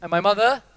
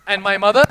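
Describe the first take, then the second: First: Said in the usual way. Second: Louder. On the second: Shown as a demonstration. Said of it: "If the person next to".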